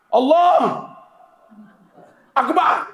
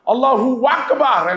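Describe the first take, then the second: First: A break separates the two words. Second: The two words run together without a break. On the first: The speaker calls it wrong. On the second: The speaker calls it right. "Tidak diganggu"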